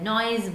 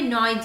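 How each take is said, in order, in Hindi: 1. शब्द का अंत z ध्वनि से होता है। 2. शब्द का अंत s ध्वनि से होता है। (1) "नॉइज बोलते हैं, तो नॉइज यहाँ पे हम ज बोलते हैं" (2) "यहाँ पे नॉइज नहीं"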